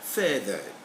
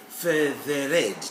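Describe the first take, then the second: First: The ending is a short plain 'ed' sound. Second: Every letter of the ending is sounded out. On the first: The speaker calls it right. "it's simply feathered" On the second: The speaker calls it wrong. "don't say feathered"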